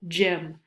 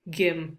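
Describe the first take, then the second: First: The word begins with a soft j sound. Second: The word begins with a hard g sound. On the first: The speaker calls it right. "Sometimes G makes the J sound" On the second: The speaker calls it wrong. "We don't say g, g, gym, right? That's not a word"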